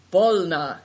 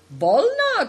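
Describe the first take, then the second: First: Firm, louder single word; resolute. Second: Bolna cried out much higher and louder; eager cry. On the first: Good Fortune firmly agrees to set out. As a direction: settle it with a firm Bolna. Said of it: "answered Good Fortune resolutely". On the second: Host eagerly urges Big Tiger to speak. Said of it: "cried Nai Dong". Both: A narrator's reading.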